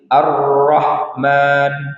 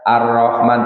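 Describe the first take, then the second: First: The doubled consonant is held long, unhurried. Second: The doubled consonant is rushed and cut short. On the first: The speaker calls it right. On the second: The speaker calls it wrong.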